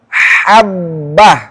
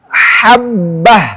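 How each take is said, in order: No difference in how they are said.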